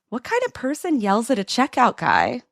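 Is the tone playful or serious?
playful. It is said in a teasing, playful tone. The question is flirty teasing, not criticism.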